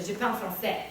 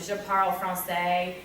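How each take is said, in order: First: French pronounced with a French accent; proper French accent. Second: Slow French with a heavy English accent. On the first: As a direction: say it as a French speaker would. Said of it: "as opposed to". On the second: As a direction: say the French with plain English sounds. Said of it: "I will use an English accent". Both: Shown as a demonstration.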